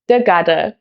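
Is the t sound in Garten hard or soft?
soft. The t sound is softened toward d. This is the Hessian dialect.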